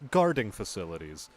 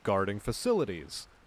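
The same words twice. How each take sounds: First: The stress falls on the word guarding. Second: The stress falls on the word facilities. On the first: Facilities where guarding is manufactured. The speaker calls it wrong. "The inflection on guarding facilities was like" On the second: The job of protecting facilities. The speaker calls it right. "she should have just said"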